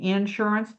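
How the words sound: It is said in a Texas accent. "that little parody of the uh, Texas"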